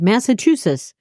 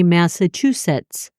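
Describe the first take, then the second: First: The syllables are rushed and run together. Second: Each syllable is slowly and clearly enunciated. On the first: The speaker calls it wrong. "which I do when I don't slow down and enunciate it properly" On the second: The speaker calls it right. "I had to pronounce it Massachusetts like that"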